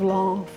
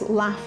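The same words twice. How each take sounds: First: The word is said in a non-Birmingham accent. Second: The word is said in a Birmingham accent. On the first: This is how others expect it to be said. "instead of" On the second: This is how people from Birmingham say it. "you've got that accent"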